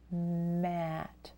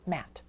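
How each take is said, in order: First: The word is said slowly, sounds stretched. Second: The word is said fast, as one word.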